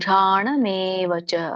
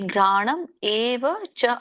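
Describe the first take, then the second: First: The words are run together as one. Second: The words are said as separate words. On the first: "ಕೂಡಿ ಹೇಳಿ" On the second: "ಮೂರು ಪದಗಳಾಗತ್ತೆ"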